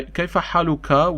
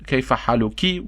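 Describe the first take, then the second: First: حالك ends in -ka, haluka; masculine ending. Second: حالك ends in -ki, haluki; feminine ending. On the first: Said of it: "I'm talking to a man". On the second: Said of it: "talking to a female". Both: Shown as a demonstration.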